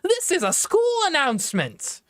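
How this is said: It sounds confident and assertive. "He used to be more confident"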